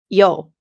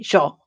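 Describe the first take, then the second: First: The word begins with a y sound. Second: The word begins with a sh sound. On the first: This is how other Spanish speakers say it. "I don't say yo" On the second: This is how people in Argentina say it. "I say sure with a sh"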